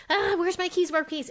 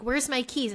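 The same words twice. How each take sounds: First: High-pitched, flustered fretting; stressed. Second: Said in the usual way. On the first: Retold or imitated. Mom hunting for her lost keys, stressed. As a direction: work yourself into a mock fluster. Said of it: "And I'd feel the stress". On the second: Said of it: "I also would walk around".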